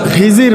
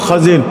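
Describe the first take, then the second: First: The first vowel sounds like 'i'. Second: The first vowel sounds like 'o'. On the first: The speaker calls it wrong. "আমরা এই নামটা জানি খিজির বলে" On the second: The speaker calls it right. "এটার সঠিক উচ্চারণ হলো খজির"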